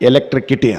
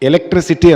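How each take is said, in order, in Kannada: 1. ಈ ಪದವನ್ನು k ಶಬ್ದದಿಂದ ಹೇಳಲಾಗುತ್ತದೆ. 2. ಈ ಪದವನ್ನು s ಶಬ್ದದಿಂದ ಹೇಳಲಾಗುತ್ತದೆ. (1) "ಎಲೆಕ್ಟ್ರಿಕಿಟಿ ಅಂದ" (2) "ಎಲೆಕ್ಟ್ರಿಸಿಟಿ ಅಂದರು"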